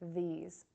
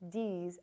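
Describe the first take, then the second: First: The word starts with a voiced th sound. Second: The word starts with a hard d sound. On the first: The speaker calls it right. "instead of hearing v" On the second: The speaker calls it wrong. "you'll hear d"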